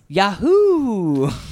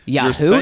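First: The voice falls at the end, like an exclamation. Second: The voice rises at the end, like a question. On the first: The speaker says the brand name as an exclamation. The speaker calls it right. "It's Yahoo!" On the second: The speaker sounds puzzled, as if asking. The speaker calls it wrong. "You're saying it with a question mark"

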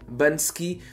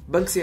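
First: The k sound comes after the s. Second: The k sound comes before the s. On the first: The speaker calls it wrong. "Bansky deve ser um movimento que por algum motivo quer banir o ski" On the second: The speaker calls it right. "Banksy é a resposta correta"

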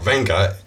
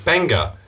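First: The name begins with a V sound. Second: The name begins with a B sound. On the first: The speaker calls it wrong. "it's not Venga" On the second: The speaker calls it right. "it's Benga"

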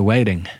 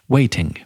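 First: The middle T is pronounced like a D. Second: The middle T is pronounced as a clear T. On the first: It sounds ridiculous. "Or you go with the D and you sound ridiculous" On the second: It sounds posh and southern. "Or you go with the T"

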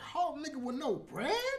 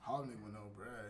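First: It is said with lively, varied pitch. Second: It is said in a flat monotone.

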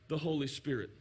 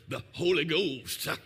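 First: It is said in a plain, ordinary voice. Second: It is said in a dramatic preacher voice.

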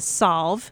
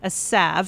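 First: The word sounds like 'solve'. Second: The word does not sound like 'solve'. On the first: "a lot of people call it a salve" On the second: "that's how you pronounce it"

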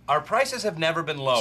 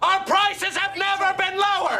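First: It is said at normal volume. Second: It is yelled loudly.

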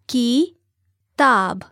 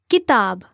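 First: The word is said slowly, syllable by syllable. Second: The word is said smoothly at normal speed. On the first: "break down syllable by syllable" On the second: "one time at natural native speed"

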